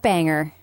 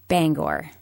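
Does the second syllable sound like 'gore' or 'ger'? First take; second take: ger; gore. First: The second syllable sounds like 'ger'. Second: The second syllable sounds like 'gore'. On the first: The speaker calls it wrong. "Not Banger" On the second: The speaker calls it right. "how we should have said that city's name"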